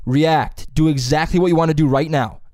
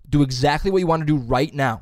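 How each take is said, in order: First: Louder coaching call; teacher's instruction. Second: Teacher's instruction repeated. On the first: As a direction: urge the actors on, raised voice. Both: Retold or imitated. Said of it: "He'll go".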